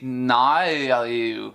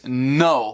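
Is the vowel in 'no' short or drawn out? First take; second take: drawn out; short. First: The vowel is drawn out, Australian style. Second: The vowel is short and plain. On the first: "torna-se naio" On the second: "A palavra simples no"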